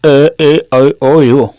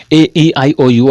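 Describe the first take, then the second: First: "ए ई आई ओ यू" stretched out very slowly, mouth-shaped; over-shape and hold each vowel as in a mouth exercise; very slow, distorted demo vowels; exaggerated vowel shapes. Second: A, E, I, O, U drawn out slowly; slow model vowels; vowel demonstration. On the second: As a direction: show each mouth shape on "ए ई आई ओ यू". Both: Shown as a demonstration. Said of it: "आपको ऐसे बोलना है".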